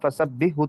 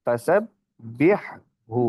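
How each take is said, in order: First: The two h sounds are merged into one. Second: The two h sounds are kept separate. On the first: The speaker calls it wrong. "अब इसको फसब्बिहु तो नहीं ना पढ़ते" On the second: The speaker calls it right. "अब ये दोनों हल्कियां हैं, हा और हा।"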